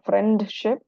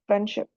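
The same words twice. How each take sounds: First: The d sound is clearly pronounced. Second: The d sound is left out. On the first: The speaker calls it wrong. "Jadi bukan friendship" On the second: The speaker calls it right. "Jadi d-nya nggak ada"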